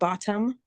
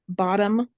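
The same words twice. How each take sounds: First: The T sound in the middle is clearly pronounced. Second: The T sound in the middle is dropped. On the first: This is the standard way to say it. "instead of" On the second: This is how Californians say it. "we don't say our T's"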